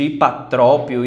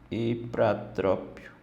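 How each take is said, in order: First: No R sound follows the P. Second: An R sound follows the P. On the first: The speaker calls it wrong. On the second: The speaker calls it right.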